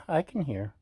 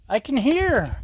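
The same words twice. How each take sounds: First: Said in the usual way. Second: High, eager exclaim; thrilled to hear the sizzle; excited. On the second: Real, not acted. Hears the food sizzle.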